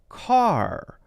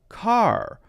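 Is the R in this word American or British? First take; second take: American; American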